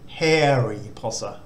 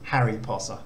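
First: The first vowel is long, like 'hairy'. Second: The first vowel is short, like usual English. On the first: "the actual Thai pronunciation of this word uses the sara e is more like sort of Harry Potter" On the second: "rather than Harry Potter"

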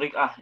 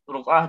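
First: The first vowel is an i sound. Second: The first vowel is an u sound. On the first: The speaker calls it wrong. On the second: The speaker calls it right.

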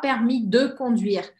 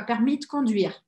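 First: The word de is fully pronounced. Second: The word de is dropped. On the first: The speaker calls it wrong. "Você não precisa, então, falar permis de conduire" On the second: The speaker calls it right. "Corta esse de aí, fica permis de conduire"

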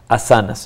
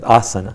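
First: The stress is on the second syllable. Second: The stress is on the first syllable. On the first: This is the common Western pronunciation. "en Occidente se le suele decir asanas" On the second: This is the traditional pronunciation used in India. "el acento está en, en la primera A"

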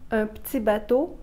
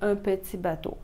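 First: The first vowel of petit is dropped. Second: The first vowel of petit is fully pronounced. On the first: "si je dis" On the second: "ça veut dire"

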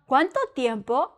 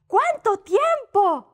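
First: It is asked as a question. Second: It is said as an exclamation.

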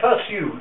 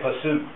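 First: A 'y' glide comes before the 'oo' sound. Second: The vowel is a plain 'oo' sound. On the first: The speaker calls it right. "we say pursue" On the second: The speaker calls it wrong. "We don't say pursue"

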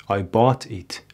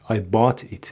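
Both takes have the same delivery.

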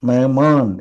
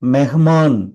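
First: The middle h sound is light, nearly silent. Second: The middle h sound is pronounced strongly. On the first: The speaker calls it right. "நார்மலாக பேச்சு வழக்கில் சொல்கிற மாதிரி" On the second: The speaker calls it wrong. "அழுத்தி படிக்க stress கொடுத்து படிக்கிற மாதிரி இருக்கும்"

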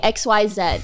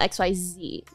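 First: The letters are said the Canadian way. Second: The letters are said the American way.

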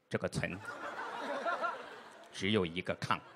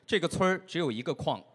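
First: It is said with a heavy regional accent. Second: It is said in standard Mandarin pronunciation. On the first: The listeners misheard it as a different sentence. The speaker calls it wrong. "他阴森的声音从片子里传出来" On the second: The intended meaning is clear. The speaker calls it right. "最后一翻译过来是"

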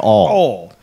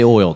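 First: The vowel is flattened so it sounds like 'all'. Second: The vowel is a clear 'oy' diphthong. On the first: "They say all" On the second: "they don't say oil down south"

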